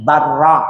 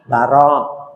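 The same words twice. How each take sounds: First: The r sound is held long, doubled. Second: The r sound is short, single.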